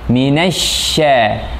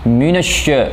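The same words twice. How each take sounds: First: The lips stay spread, unrounded, on sh. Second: The lips are pushed forward and rounded on sh. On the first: The speaker calls it right. "bukan begitu, tapi minasya" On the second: The speaker calls it wrong. "shinnya dimonyongkan, ini salah"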